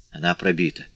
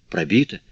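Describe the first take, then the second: First: Said in the usual way. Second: "Пробита" said as a question, pitch rising at the end; questioning echo. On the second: A narrator's reading. Marius echoes it as a question.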